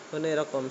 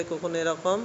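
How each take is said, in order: Both takes have the same delivery.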